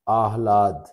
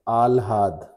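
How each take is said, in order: First: The h sound comes before the l. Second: The h sound comes after the l. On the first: The speaker calls it right. "सही क्या होता है, आह्लाद" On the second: The speaker calls it wrong. "आप लिखते हैं आल्हाद"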